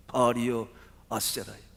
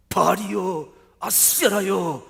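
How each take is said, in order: First: Restrained call to the gods, louder at the start. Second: High, very loud wail to the gods; desperate screaming cry. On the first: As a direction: call out to your idols without screaming. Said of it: "신들을 향해서 부르짖기". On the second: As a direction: scream out to your idols, dragging the last name. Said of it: "마치 절규하듯 부르짖지요". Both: Acted.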